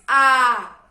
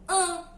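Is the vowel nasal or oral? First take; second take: oral; nasal. First: The vowel is open and comes through the mouth. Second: The vowel is closed and partly through the nose. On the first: "que é um som aberto. É um som oral que sai totalmente pela boca" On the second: "som nasal, um som fechado"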